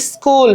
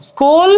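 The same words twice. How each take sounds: First: স্কুল said as "iskul"; added initial vowel. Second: Said in the usual way. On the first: Shown as a demonstration. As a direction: put a short i before স্কুল: is-kul. (স্কুল, আগে ই দিয়ে "ইস্কুল") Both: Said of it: "আগে উচ্চারণ হচ্ছে না".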